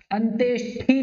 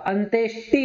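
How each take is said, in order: First: अंत्येष्टि with an aspirated ठ sound; the mistaken अंत्येष्टि, "antyeshthi"; wrong pronunciation. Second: अंत्येष्टि with a plain unaspirated ट, "antyeshti"; crisp ट in अंत्येष्टि; correct pronunciation. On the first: Teacher showing the wrong form, breathy "shthi". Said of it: "अंत्येष्टि नहीं होता". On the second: Teacher giving students the right form, crisp "shti". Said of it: "अंत्येष्टि होता है". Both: Shown as a demonstration.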